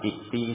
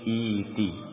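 First: A glottal stop follows the first short vowel. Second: The first vowel is long, without a glottal stop. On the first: The speaker calls it wrong. "bukan iti" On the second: The speaker calls it right. "hamzahnya hilang menjadi ya"

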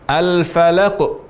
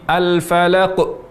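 The two takes are said the same way.

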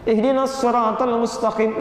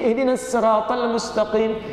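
First: Sirat begins with a heavy, emphatic s sound. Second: Sirat begins with a light, plain s sound. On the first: This follows one accepted recitation tradition. "La bisad, bukan sin, sad" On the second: This follows another accepted recitation tradition. "La bisin"

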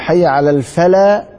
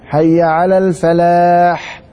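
First: The final h sound is dropped. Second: The final h sound is clearly pronounced. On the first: The speaker calls it wrong. "فين الحاء؟ لا راحت" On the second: The speaker calls it right. "لازم تخرج"

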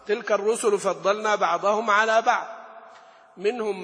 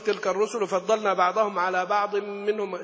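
First: A pause separates 'ba'd' from 'minhum'. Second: 'Ba'd' runs straight into 'minhum', pausing afterward. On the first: Some messengers were preferred over others in general. The speaker calls it right. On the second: The one spoken to by God becomes the one others were preferred over. The speaker calls it wrong.

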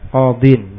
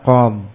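First: The word ends with an -in syllable. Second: The word ends on a bare consonant. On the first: This is the full form within a sentence. "Aslinya apa? Qadin" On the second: This is the form read at a pause. "dibaca qam"

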